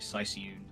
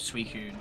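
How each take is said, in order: First: The name is said as 'Sicyoon'. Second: The name is said as 'Suicune'. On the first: The speaker calls it wrong. "I used to say Sicyoon" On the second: The speaker calls it right. "instead of Suicune for the Pokemon"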